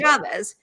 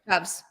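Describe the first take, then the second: First: Two syllables ending in an 'ez' sound. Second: One syllable with a short 'ah' vowel. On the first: The speaker calls it wrong. "it is not Chavez" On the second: The speaker calls it right. "it's Michael Shavs"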